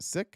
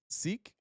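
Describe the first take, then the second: First: The word has a short i vowel. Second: The word has a long ee vowel. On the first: The speaker calls it right. "It's pronounced sick" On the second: The speaker calls it wrong. "It's not pronounced seek"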